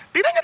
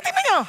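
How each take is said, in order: First: Said in the usual way. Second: Tingnan niyo sung out high, teasing; high teasing call. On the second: Real, not acted. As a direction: call it out high to tease the crowd. Teasing the silent crowd. (mataas at nanunukso na tawag)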